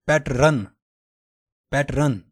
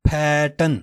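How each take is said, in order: First: پیٹرن with a rolled r, "pet-run"; the common wrong way, پیٹرن with the r; wrong pronunciation. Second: پیٹرن said "pa-tun", r dropped; British پیٹرن, no r sound; British pronunciation. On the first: Teacher showing the mistake: پیٹرن. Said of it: "پیٹرن بولنا اس کو غلط ہے". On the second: Teacher modelling British English: پیٹرن. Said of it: "British English میں ہے". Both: Shown as a demonstration.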